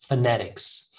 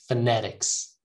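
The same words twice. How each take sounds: Both takes have the same delivery.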